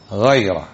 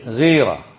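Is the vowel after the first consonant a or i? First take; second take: a; i. First: The vowel after the first consonant is a. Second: The vowel after the first consonant is i. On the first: It names the virtue of protective jealousy. The speaker calls it right. "لاحظتم اسمها إيش؟" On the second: It names a disease in an animal's belly. The speaker calls it wrong. "كثير من الناس ماذا يلفظها؟ ... هذا خطأ"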